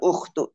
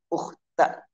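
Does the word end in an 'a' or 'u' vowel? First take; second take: u; a. First: The word ends with an 'u' vowel. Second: The word ends with an 'a' vowel. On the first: The speaker calls it wrong. "Tidak ukhtu" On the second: The speaker calls it right. "tapi ukhta Harun"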